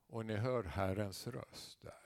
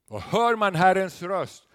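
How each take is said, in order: First: Soft and slow, drawing them in; quiet, slow preaching. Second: Loud, emphatic repeat; raised preacher's voice. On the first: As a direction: say it gently. Quiet first statement. (tyst och långsamt) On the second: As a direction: hammer the point home again. Repeats the climax. (upprepar med eftertryck) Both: Acted.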